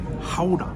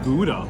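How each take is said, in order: First: It is said with an attempted Dutch pronunciation. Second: It is said with a plain English pronunciation.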